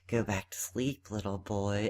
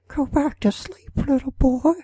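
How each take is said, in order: First: It is a weaker Joker impression. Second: It is a stronger Joker impression.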